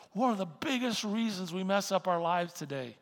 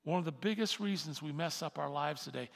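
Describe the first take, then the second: First: Louder, stressing one; preacher hammering the point again; louder emphatic repeat. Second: Said in the usual way. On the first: Shown as a demonstration. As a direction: drive the repeat home harder. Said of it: "repeated for emphasis". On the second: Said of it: "repeated louder".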